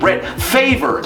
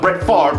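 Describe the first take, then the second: First: Favre is pronounced the way it is spelled. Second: Favre is pronounced differently from its spelling. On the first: The speaker calls it wrong. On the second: The speaker calls it right.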